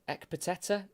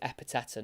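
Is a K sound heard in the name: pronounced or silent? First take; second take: pronounced; silent. First: A K sound is heard in the name. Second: No K sound is heard in the name. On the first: The speaker calls it wrong. "I was trying to work out how you say his name" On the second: The speaker calls it right. "that K was certainly silent. So it is Epiteta"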